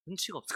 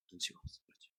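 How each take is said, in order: First: Said in the usual way. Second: Whisper. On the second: Real, not acted. Preacher's aside about Elkanah.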